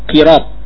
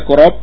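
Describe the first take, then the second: First: The first vowel is a front 'i' sound. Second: The first vowel is a rounded 'u' sound. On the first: "atau dikasrah. Qirab" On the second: "Qafnya bisa didommah, dibaca qurab"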